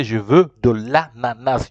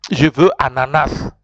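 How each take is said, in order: First: Slow, deliberate French correction; correct model phrase. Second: Said in the usual way. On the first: Shown as a demonstration. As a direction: stretch out "de l'ananas" for the learner. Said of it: "You have to say". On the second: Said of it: "No, no, it's not like that".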